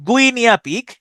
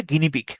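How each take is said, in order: First: গুইনিয়া পিগ pitched up, every written vowel sounded; spelling pronunciation. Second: Said in the usual way. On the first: Shown as a demonstration. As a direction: say গুইনিয়া পিগ as "gui-ni-a pig", higher. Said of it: "উচ্চারণ করতে পারেন এইভাবে". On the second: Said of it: "এটা উচ্চারণ হচ্ছে গিনিপিগ".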